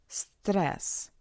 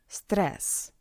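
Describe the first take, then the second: Both takes have the same delivery.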